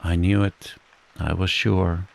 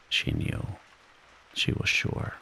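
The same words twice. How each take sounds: First: Said in the usual way. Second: Soft unvoiced whisper of realisation; whispered echo. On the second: A narrator's reading. Whispered echo of own certainty.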